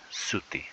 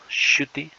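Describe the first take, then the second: First: The word begins with a plain s sound. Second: The word begins with a palatal sh sound. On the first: This is the simpler, current form. "se ha convertido en la letra S" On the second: This is the older form still used in some regions. "ese sonidito shuti"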